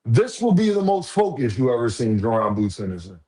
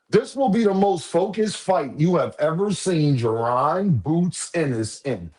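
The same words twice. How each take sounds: First: Said in the usual way. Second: Higher, slow, every word leaned on; slow emphatic prediction. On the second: Real, not acted. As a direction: drag it out so they remember it. Repeats the prediction slowly.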